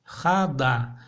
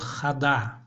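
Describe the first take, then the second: First: The second vowel is fully pronounced. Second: The second vowel is fully pronounced.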